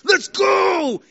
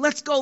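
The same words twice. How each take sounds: First: It is said as a triumphant shout. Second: It is said as a hopeful plea.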